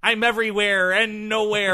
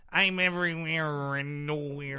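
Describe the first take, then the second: First: Dramatic hacker line through voice changer; morphing voice. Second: Faking a voice changer with his own voice; self-modulated voice. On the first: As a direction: voice changer, pitched up. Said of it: "your voice changer died". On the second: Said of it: "Let me try to modulate my own voice". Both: Pretend.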